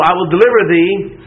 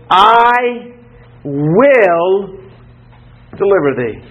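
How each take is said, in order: First: Said in the usual way. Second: "I" high and held, "will" set apart by pauses; emphatic promise. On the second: Acted. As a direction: declare "I" and "will" one at a time, slowly. Emphatic first reading of God's promise.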